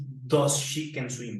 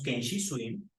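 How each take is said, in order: First: Slow, marked error; drawn-out mistake; slow wrong example. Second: Said in the usual way. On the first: Shown as a demonstration. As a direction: say the wrong form slowly. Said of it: "No decimos".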